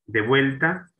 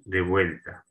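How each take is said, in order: First: "De vuelta" lifted high and loud, rising at the end; rising tune. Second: "de vuelta" at usual pitch, falling to a close; falling tune. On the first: Teacher announces the first homophone to students, "De vuelta" rising. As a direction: say "De vuelta" with a high, emphatic upward lift. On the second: Teacher gives the second homophone to students, "de vuelta" falling. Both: Shown as a demonstration. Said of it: "De vuelta junto".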